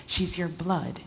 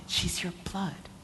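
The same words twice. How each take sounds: First: Desperate. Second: Broken sob. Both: Acted.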